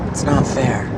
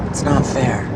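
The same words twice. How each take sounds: No difference in how they are said.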